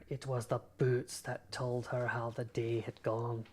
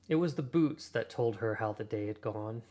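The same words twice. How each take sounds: First: It is read in a put-on Scottish accent. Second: It is read in the speaker's normal accent. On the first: "a little Alan Cummings impression" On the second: "I won't keep torturing people with a bad Scottish accent"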